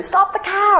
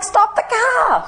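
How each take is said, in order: First: High-pitched mock yell, short and sharp; retold scream. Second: Very high, slow, stretched-out mock yell; retold scream, drawn out. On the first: To colleagues driving past the sign, a high mock yell. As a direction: shriek it up high to halt the car. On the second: Insisting again to colleagues, slow high stretched yell. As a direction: drag each word out in a high, crying yell. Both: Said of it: "you know, screamed".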